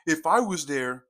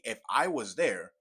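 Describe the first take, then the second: First: Mock quote. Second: Genuine. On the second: Real, not acted. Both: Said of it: "but genuinely".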